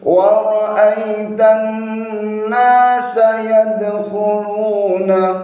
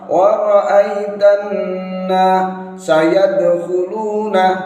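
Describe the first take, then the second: First: The last two words are kept clearly separate. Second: The last two words blur together into one. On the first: The speaker calls it right. "Namun seperti ini" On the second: The speaker calls it wrong. "Jangan sampai disambung, nanti jadinya kabur rancu"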